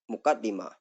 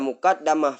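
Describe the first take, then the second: First: The vowel after the d is i. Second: The vowel after the d is a. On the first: It is the part that comes before. "Yang masyhur tetap muqaddimah kasrah dal" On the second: It is the part that is put first. "fathah dalnya isim maf'ul"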